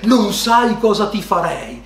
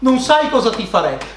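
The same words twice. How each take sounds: First: It is said in a breathy, seductive way. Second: It is said in a cold, threatening way. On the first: The speaker is sexually aroused. "quando lei ti dice all'apice del piacere" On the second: The speaker is angry and threatening. "ti guarda dito negli occhi"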